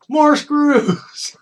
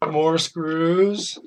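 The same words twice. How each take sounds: First: Exasperated. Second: Resigned guess. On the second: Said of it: "let me guess". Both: Real, not acted.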